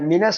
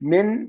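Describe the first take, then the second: First: The word ends with an added short a vowel. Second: The word ends on a bare n consonant. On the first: The speaker calls it right. "മിൻ പറഞ്ഞത് കൊണ്ട് കസറ കൊടുക്കണം" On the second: The speaker calls it wrong. "മിൻ അല്ല"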